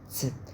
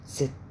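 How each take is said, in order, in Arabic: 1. يبدأ بصوتي 't' و's' معًا. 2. يبدأ بصوتي 't' و's' معًا.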